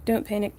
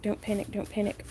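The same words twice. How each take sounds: First: Telling yourself to stay calm; steady self-soothing, barely holding; forced calm before panic. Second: Softer repeated self-reassurance; muttered to self. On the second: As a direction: murmur it to yourself, fading. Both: Real, not acted.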